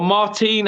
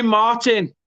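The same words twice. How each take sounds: First: Put-on "Martin" said mar-TEEN, stress at the end; long "ee" in the second syllable of "Martin"; alternative pronunciation. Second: "Martin" said the English way, MAR-tin; English pronunciation. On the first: Commentator offering another reading of the striker's name, "Martin" as mar-TEEN. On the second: Commentator naming the Mexican striker, "Martin" as English MAR-tin. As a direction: stress the first syllable of "Martin", short ending. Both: Shown as a demonstration. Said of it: "however it wants to be pronounced".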